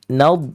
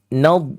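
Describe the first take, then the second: First: Space kept inside the mouth; the ending sounds hollow. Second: Space kept inside the mouth; the ending sounds hollow.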